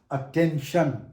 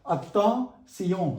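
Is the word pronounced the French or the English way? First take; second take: English; French. First: The ending is pronounced the English way. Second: The ending is pronounced the French way. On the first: "that is attention" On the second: "In French, T I O N spelling is pronounced as Sion"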